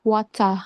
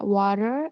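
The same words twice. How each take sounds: First: "water" with a sharp T and open ah, no R; "wata", crisp T and no R; South African water. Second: "water" with the R sounded at the end; American "water", ending in an R. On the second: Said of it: "water in America, pronounced". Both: Shown as a demonstration.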